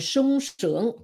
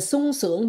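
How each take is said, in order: First: The first word starts with an sh sound. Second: The first word starts with a plain s sound. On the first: The speaker calls it right. "mình nói là sung sướng" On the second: The speaker calls it wrong. "Mình không nói là sung sướng"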